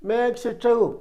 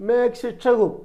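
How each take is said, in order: No difference in how they are said.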